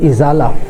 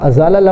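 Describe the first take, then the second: First: The first vowel is 'i'. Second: The first vowel is not 'i'. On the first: The speaker calls it right. "الف کے نیچے زیر پڑے" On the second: The speaker calls it wrong. "ازالہ لفظ نہیں ہوتا"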